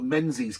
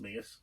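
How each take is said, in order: First: The name is said without the Scottish pronunciation. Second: The name is said with the Scottish pronunciation.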